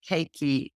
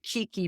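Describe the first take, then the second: First: The first syllable sounds like 'kay'. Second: The first syllable sounds like 'kee'. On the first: This is the way used in Hawaii. The speaker calls it right. "I think you pronounce it Keiki" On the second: This is the usual local way to say it. The speaker calls it wrong. "We pronounce it Kiki, but someone I know that lived in Hawaii said that's not correct"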